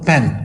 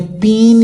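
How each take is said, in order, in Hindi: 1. स्वर छोटा है और उस पर ज़ोर नहीं है। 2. स्वर लंबा है, ee जैसा। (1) "ये बहुत छोटी साउंड प्रोनाउंस कर रहे हैं" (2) "आपने पीन लफ्ज़ नहीं बोला"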